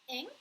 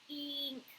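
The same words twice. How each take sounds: First: The vowel is a short 'ih' sound. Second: The vowel sounds like a long 'ee'. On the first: The speaker calls it wrong. "looks like it could be pronounced like ink, ink, because I sometimes makes the I, I, inchworm sound" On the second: The speaker calls it right. "like a long E at the beginning"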